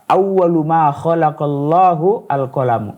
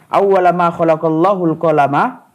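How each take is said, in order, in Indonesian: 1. Kata pertama berakhir dengan vokal 'u'. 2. Kata pertama berakhir dengan vokal 'a'. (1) "Mereka memarfukan, menjadikan awwalu sebagai mubtada" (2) "menasabkan kata-kata awwala"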